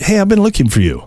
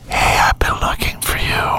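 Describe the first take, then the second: First: It is spoken in a normal full voice. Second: It is whispered close and breathy. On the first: "you say it normal" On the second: "Completely changes it"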